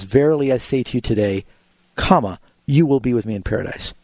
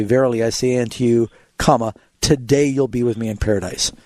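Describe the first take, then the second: First: "today" ends the first phrase, break, then "you will be with me"; comma after today. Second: Pause, then attach "today" to "you'll be with me in paradise"; comma before today. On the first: Pastor contrasting the Greek sense, break placed after "today". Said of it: "Where really in the Greek it says". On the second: Pastor reading the King James punctuation, "today" after the break. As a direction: break after "unto you", "today" begins the next phrase. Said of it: "in the King James it'll say". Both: Shown as a demonstration.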